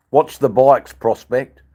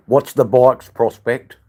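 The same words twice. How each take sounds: The two takes are said the same way.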